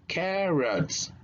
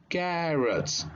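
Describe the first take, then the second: No difference in how they are said.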